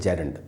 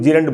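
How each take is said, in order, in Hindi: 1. पहला स्वर छोटी 'e' ध्वनि है। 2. पहला स्वर लंबी 'ee' ध्वनि है। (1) "शुद्ध जो सही उच्चारण है वो है जेरंड" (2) "अक्सर हम लोग जीरंड बोल लेते हैं इंडिया में"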